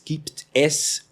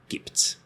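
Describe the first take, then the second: First: Both words are said in full, two syllables. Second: The words merge into one short syllable. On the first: "we don't say usually this gibt es" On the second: "we just make it shorter and say gibt's"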